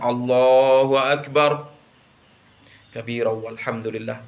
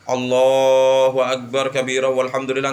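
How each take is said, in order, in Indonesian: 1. Ada jeda sebentar setelah 'Allahu akbar'. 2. Langsung tersambung tanpa jeda. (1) "Tapi diam sejenak"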